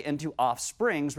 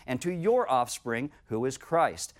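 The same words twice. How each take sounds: First: "offsprings" slow, the plural s leaned on; stress on offsprings. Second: "offspring" slow and singular, "your" lifted; slow, weight on "your offspring"; stress on singular. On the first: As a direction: linger on the s of "offsprings". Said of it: "referring to many". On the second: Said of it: "but referring to one". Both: Shown as a demonstration.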